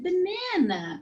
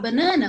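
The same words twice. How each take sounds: First: Banana is pronounced with English sounds. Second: Banana is pronounced with Portuguese sounds. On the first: The word is said as in the language being learned. The speaker calls it right. "você tem que falar um pouquinho assim" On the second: The word is said as in the speaker's native language. The speaker calls it wrong. "fala do mesmo jeito, mas eu não posso falar banana?"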